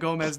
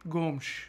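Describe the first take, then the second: First: It is said with an English pronunciation. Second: It is said with a European Portuguese pronunciation. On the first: "I'm just going to keep saying Gomez" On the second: "that's the Portuguese, the Portugal Portuguese pronunciation"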